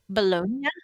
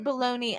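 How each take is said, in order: First: It is said with a French pronunciation. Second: It is said with an American pronunciation. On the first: "I'm pretty sure that's how they say it" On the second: "we also pronounce it wrong as Americans"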